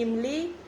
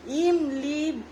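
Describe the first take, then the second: First: Said in the usual way. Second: इमली slowly with stretched vowels, 'eem-lee'; drawn-out sounding-out. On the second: Shown as a demonstration. Mother demonstrating Hindi vowels, इमली stretched syllable by syllable. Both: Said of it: "खींच के होता है".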